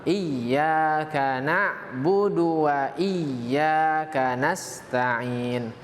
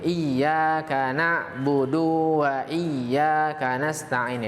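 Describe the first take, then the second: First: The syllable 'du' is kept short. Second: The syllable 'du' is drawn out long. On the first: The speaker calls it right. "Yang benar" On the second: The speaker calls it wrong. "memanjangkan e, na'budu itu ... Itu tidak tepat"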